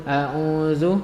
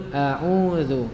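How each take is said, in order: No difference in how they are said.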